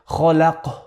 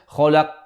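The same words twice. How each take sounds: First: The final qaf ends with a breathy puff of air. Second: The final qaf is held closed without any release. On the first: "don't do hams. Don't say خلق" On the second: "don't hold it... Don't say خلق"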